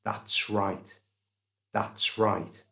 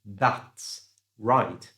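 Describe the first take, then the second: First: That's right with the S run into right; linked That's right. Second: That's right with a gap between words; separated That's right. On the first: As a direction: join That's right smoothly. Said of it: "joined that's and right together". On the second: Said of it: "So he didn't say". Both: Shown as a demonstration.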